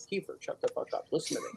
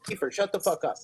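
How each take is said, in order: First: Sudden hushed mock-menacing whisper. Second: Said in the usual way. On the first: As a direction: drop to a breathy threat, voiceless. Mock-threatening whisper to guest.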